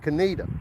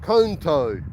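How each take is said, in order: First: The name is said with three syllables. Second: The name is said with two syllables. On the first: The speaker calls it right. "but it's actually Coneta" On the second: The speaker calls it wrong. "You would think it would be pronounced Conto"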